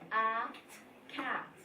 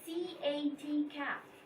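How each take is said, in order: First: Each letter is spoken as its sound. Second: Each letter is spoken by its name. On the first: This is how a word is read. The speaker calls it right. "He will say" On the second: This is how a word is spelled. The speaker calls it wrong. "he will not say C A T cat"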